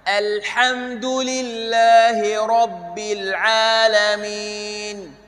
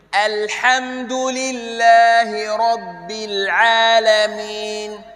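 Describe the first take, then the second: The two takes are said the same way.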